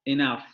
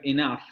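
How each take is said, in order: No difference in how they are said.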